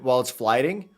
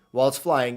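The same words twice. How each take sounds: First: "flying" said with a stray d, like "fliding"; stumbled "flying" as "fliding"; mispronounced flying. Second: Said in the usual way. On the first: Real, not acted. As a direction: put a d in the middle of "flying", as "flai-ding".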